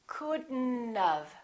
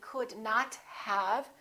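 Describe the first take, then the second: First: D joins N; the O and T drop. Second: Not is said in full with O and T. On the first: The speaker calls it right. "the O disappears, but the T also disappears" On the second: The speaker calls it wrong. "we don't say could not have"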